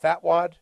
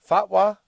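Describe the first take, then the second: First: The word ends with a d sound. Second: The word ends without a d sound. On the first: The speaker calls it wrong. "It's not fatwad" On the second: The speaker calls it right. "What's a fatwa?"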